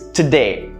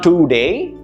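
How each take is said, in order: First: The first vowel is a weak 'uh' sound. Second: The first vowel is a full 'oh' sound. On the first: The speaker calls it right. "it's today. Notice the pronunciation, today, uh, today. Soft, easy, uh" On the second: The speaker calls it wrong. "It's not today"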